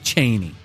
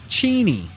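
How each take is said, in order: First: The first vowel is 'ay', rhyming with zany. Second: The first vowel is 'ee', rhyming with genie. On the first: The speaker calls it wrong. "not zany" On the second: The speaker calls it right. "rhymes with genie"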